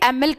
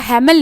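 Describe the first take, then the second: First: The name begins with a vowel, no h sound. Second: The name begins with an audible h sound. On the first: The speaker calls it right. "इसको मैंने एमिल कहा" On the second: The speaker calls it wrong. "हैमिल नहीं कहा"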